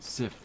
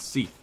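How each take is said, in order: First: The name has a short 'ih' vowel. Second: The name has a long 'ee' vowel. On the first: The speaker calls it wrong. "No, it's not Sith" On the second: The speaker calls it right. "It's Seath"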